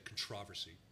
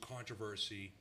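First: It is said with a British pronunciation. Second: It is said with an American pronunciation.

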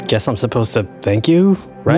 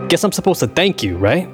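First: It is said in a milder, less aggressive way. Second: It is said in a more aggressive way.

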